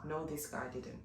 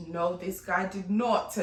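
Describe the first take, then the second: First: Said in the usual way. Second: Slow, louder, each word spaced, NOT hit hardest; "did not" pulled apart and stressed. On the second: Shown as a demonstration. Correcting herself to the host with a firm did not.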